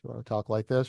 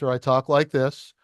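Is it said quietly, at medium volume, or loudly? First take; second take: medium volume; loudly. First: It is said at medium volume. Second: It is said loudly.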